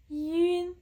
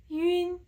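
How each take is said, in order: No difference in how they are said.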